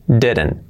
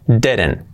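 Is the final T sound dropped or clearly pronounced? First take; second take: dropped; dropped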